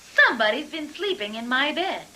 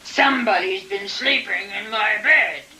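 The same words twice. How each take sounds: First: It is said in a middle-sized voice. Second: It is said in a big gruff voice.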